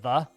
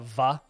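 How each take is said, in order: First: The word begins with a TH sound. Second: The word begins with a V sound. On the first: "instead of the" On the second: "with like a V sound"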